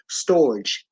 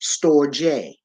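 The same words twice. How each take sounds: First: Storge as one syllable, "storj"; storge rhyming with "forge"; storge as spelled. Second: Storge in two syllables, "STOR-jay"; storge with final e sounded as "ay"; storge pronounced "stor-jay". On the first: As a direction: say storge like "storj", silent final e. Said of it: "However, it's pronounced". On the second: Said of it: "it's pronounced". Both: Shown as a demonstration.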